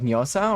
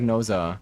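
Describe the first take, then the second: First: The name begins with a 'ny' sound. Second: The name begins with a plain 'n' sound.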